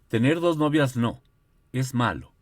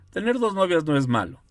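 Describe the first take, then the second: First: There is a pause after no. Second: It is said without a pause after no.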